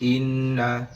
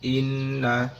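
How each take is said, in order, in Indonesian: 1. Huruf n yang ganda hanya dibaca sebentar. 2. Huruf n yang ganda hanya dibaca sebentar.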